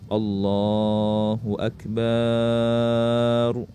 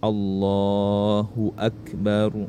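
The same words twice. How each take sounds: First: The vowel after the b is drawn out long. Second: The vowel after the b is kept short. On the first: The speaker calls it wrong. "ba-nya jangan dipanjangkan, jangan Allahu akbar" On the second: The speaker calls it right. "jadi ingat Allahu akbar"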